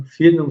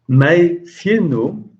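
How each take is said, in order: First: Said in the usual way. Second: "mein Firnum" drawn out slowly, higher, "mein" rising; teacher slowly stresses "mein Firnum"; stressed slow demo. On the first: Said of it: "c'est le prénom". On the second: Shown as a demonstration. Teacher spells out "mein Firnum" to class, slow and stressed. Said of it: "Firnum, c'est le prénom".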